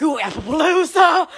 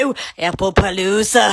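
First: Excited squeal. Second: Low, odd voice imitating the Disney man; excited TV character. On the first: Retold or imitated. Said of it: "Because I get so excited". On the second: Quoting a Good Luck Charlie character, low excited gush. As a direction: mimic the Disney man's low gushing "Ooh, Apple Palooza". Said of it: "he got so excited talking about apples".

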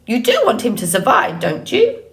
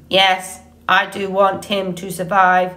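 First: Quick, swooping bird voice rising high at the end; prodding old goose. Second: Even, mechanical monotone; robot voice. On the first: Acted. Goose testing the robot's intentions, pointed squawk. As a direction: press the point like a pushy goose. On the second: A narrator's reading. Robot assuring the goose, neutral monotone. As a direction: confirm it on one level note. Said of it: "returning to her normal voice".

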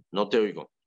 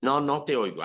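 First: Mild call out. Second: Higher, louder carrying call; teacher calling to silent students, raised and carrying; projecting, insistent. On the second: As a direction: repeat it higher, to the back of the room. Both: Retold or imitated. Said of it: "estoy proyectando la voz".

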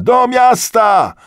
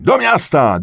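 First: Very high, loud, drawn-out yell; escalated crowd cry. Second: Loud, high, quick shout; crowd's rallying cry. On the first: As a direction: stretch the slogan out at the top of the voice. Repeated, escalating rallying cry. (przeciągły, bardzo głośny okrzyk) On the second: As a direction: shout the slogan briskly. (krótki, głośny okrzyk) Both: A narrator's reading.

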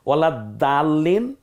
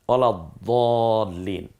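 First: ওয়ালা দালিন, the দ kept light and thin. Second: ওয়ালা দলিন, lips rounded on the দ. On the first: Teacher contrasting two দ sounds, thin and slow. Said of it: "দালটা বলার সময় একটু পাতলা হবে". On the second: Teacher contrasting two দ sounds, rounded and slow. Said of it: "দটা বলার সময় মুখটা একটু গোল হবে". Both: Shown as a demonstration.

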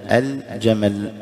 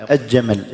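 First: «الجمل» slowly as al-jamal, distinct l; clear lam. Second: «الجمل» as aj-jamal, without any l sound; merged lam. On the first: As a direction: hold the l of «الجمل» before the jim. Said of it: "اللام مظهرة". («الجمل» بإظهار اللام) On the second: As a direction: double the j of «الجمل» in place of the l. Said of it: "خطأ". («الجمل» بإدغام اللام خطأً) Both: Shown as a demonstration.

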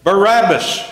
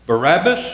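First: Loud, high cry with a falling end; crowd shout. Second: BARABBAS as a rising question. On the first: Demonstrators demand a prisoner from Pilate, shouting. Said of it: "The demonstrators shouted". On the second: Pilate offers the crowd a prisoner, questioning "Barabbas". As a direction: offer "Barabbas" as a choice, voice lifting at the end. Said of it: "Pilate asked them". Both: A narrator's reading.

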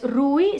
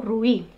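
First: "rui" with the stress on the u; first-vowel stress. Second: "ruí" drawn out with the stress on the final í; second-vowel stress. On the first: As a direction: say "rui" leaning on u, the i falling away. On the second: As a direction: say "ruí" slowly, gliding over u onto a stressed í. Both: Shown as a demonstration. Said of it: "es la segunda".

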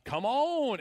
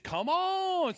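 First: Said in the usual way. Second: Drawled Southern "Come on" pitched up high. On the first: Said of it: "if you add a little bit of Southern accent". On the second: Shown as a demonstration. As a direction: stretch "Come on" with a Southern twang. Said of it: "add a little bit of Southern accent in it".

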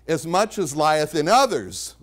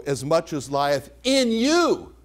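First: The wrong reading, with weight falling on "others"; stress on OTHERS. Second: Slow line landing on a stretched "you"; stress on YOU. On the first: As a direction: lean on "others" as the contrasting word. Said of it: "the verse does not say". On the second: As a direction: punch and lengthen the final "you". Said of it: "is the way you might say it". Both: Shown as a demonstration.

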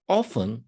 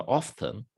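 First: Said in the usual way. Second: "often" with the T sounded, British-style; British accent. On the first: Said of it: "ya da İngiliz aksanıyla often". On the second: Shown as a demonstration. Teacher showing students the British variant of "often", British accent. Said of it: "İngiliz aksanıyla often".

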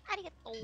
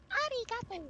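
First: Said in the usual way. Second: Much higher, playful arigato; playful high-pitched thanks. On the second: Acted.

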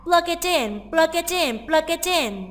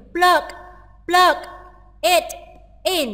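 First: "plug it in" run together as one word, plug-i-tin; linked sounds. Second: PLUG, IT and IN each said apart, with pauses between; word by word. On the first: Teacher showing students how "plug it in" links, sounds joined. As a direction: link the g of "plug" and the t of "it" onto the next vowel. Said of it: "người ta sẽ đọc nối âm rất nhiều". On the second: Teacher breaking down "plug it in" for students, word by word. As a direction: say "plug", "it", "in" as separate, unlinked words. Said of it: "người ta sẽ đọc nối âm là". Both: Shown as a demonstration.

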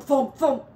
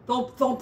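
First: Thumps hammered out much louder; rising banging thumps. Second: Loud thumps. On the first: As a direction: pound the words like a fist on the wall. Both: A narrator's reading. Noise from wall narrated.

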